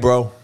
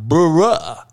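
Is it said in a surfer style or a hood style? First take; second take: surfer style; hood style. First: It is a clipped surfer-style "bro." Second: It is a breathy hood-style "bruh" with dropped lip.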